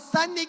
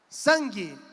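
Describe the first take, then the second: First: A separate n sound is heard after the vowel. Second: Said normally, with no extra n or u sound. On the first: The speaker calls it wrong. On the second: The speaker calls it right.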